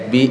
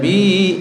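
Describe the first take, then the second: First: The vowel of bi is kept short. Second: The vowel of bi is dragged out long. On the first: The speaker calls it right. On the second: The speaker calls it wrong.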